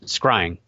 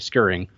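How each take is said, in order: First: It is said like crying with an s. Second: It is said with an extra vowel, like scurrying. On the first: The speaker calls it right. "It's like crying with an S" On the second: The speaker calls it wrong. "I hear people pronounce it different ways"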